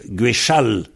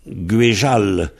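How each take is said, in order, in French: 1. La consonne du milieu est un son ch. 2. La consonne du milieu est un son j. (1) "avec un che" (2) "le Z est devenu Je"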